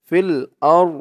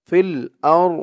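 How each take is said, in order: Both takes have the same delivery.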